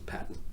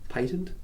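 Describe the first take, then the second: First: It is said with an American pronunciation. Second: It is said with an Australian pronunciation. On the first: "the U S says patent" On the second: "Australians tend to say patent"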